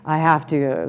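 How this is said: The voice sounds downturned and annoyed.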